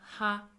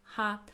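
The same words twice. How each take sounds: No difference in how they are said.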